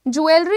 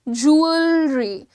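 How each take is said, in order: First: The word begins with a 'jweh' sound. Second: The word begins with a 'joo' sound. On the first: The speaker calls it wrong. "ज्वेलरी नहीं है ये" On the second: The speaker calls it right. "ऊ पे जाता है, ऊ से अ का ब्लेंड हो रहा है"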